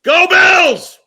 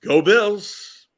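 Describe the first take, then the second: First: Big Go Bills yell, much higher and louder; all-out fan shout; full shout. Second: Higher, louder Go Bills; upbeat Go Bills cheer. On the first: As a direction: scream it like at the stadium. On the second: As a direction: cheer it out for the team. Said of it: "All right, we're ready". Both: Shown as a demonstration.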